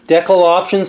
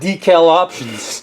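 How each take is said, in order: First: Decal is said with a British pronunciation. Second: Decal is said with an American pronunciation.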